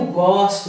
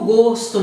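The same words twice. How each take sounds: First: The stressed vowel is an open o. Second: The stressed vowel is a closed o. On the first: It is the verb meaning I like. "esse o aqui é aberto" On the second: It is the noun meaning taste. "esse o aqui é fechado"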